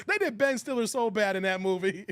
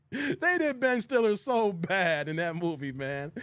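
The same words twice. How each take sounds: First: Said in the usual way. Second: Said through laughter, slowly; laughing at the line. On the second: Real, not acted. Repeat while laughing hard.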